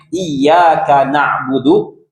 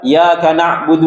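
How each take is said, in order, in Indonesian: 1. Bunyi y-nya ditahan dan dibaca ganda. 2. Bunyi y-nya pendek dan tunggal. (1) "Kalau dengan ditekan ditasdid" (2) "harusnya ditasdid, dia baca"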